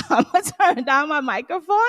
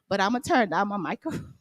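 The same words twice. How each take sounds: First: Laughing, louder. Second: Said in the usual way. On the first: Real, not acted. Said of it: "I think I'm extra loud too".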